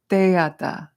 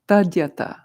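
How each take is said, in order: First: The word begins with 'tay', without a d sound. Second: The word begins with 'tad', with a d sound. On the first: This is how Tibetans and Bhutanese say it. "That's the Tibetan and Bhutanese pronunciation that we were doing" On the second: This is how it is said in Sanskrit. "the correct pronunciation of Sanskrit would be Tadyata"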